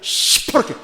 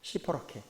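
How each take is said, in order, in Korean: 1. 이 단어는 강하고 세게 강조해서 말했어요. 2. 이 단어는 강조 없이 밋밋하게 말했어요.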